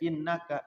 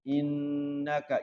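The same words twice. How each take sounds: First: The nasal n is cut short, not held. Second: The nasal n is held for several beats. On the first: The speaker calls it wrong. "jangan sampai innaka, jangan begitu" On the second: The speaker calls it right. "Jadi dibacanya gunnah"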